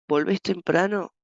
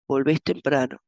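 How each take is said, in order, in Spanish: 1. La frase tiene la entonación de una pregunta. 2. La frase tiene la entonación de una afirmación.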